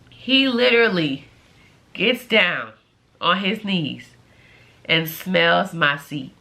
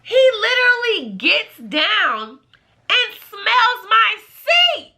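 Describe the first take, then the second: First: Low, halting, deadpan retelling; word by word, appalled; grave disbelief. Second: High, slow, scandalized squeal; slow high-pitched outrage; appalled exclamation. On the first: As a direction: drop low and pause between phrases. Repeats the act in grave disbelief. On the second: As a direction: stretch it out high in disbelief. Appalled, stretches out the shocking act. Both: Real, not acted.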